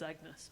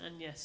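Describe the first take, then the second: First: The name is pronounced in a plain English way. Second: The name is pronounced in a French-like way. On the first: This is the familiar modern way to say it. "I always just referred to him, to myself as Agnes" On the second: This is how the name was said in that period. "I think then it was pronounced closer to the French"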